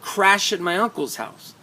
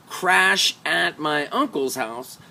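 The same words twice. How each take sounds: First: The words run together with shortened sounds. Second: Each word is said fully and separately. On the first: The speaker calls it right. "That's the shrinking" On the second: The speaker calls it wrong. "So not"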